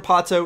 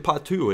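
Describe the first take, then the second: First: The name is said with an English vowel ending. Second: The name is said with a Portuguese vowel ending. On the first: "you're pronouncing it wrong" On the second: "in Portuguese, I believe it's actually Patu"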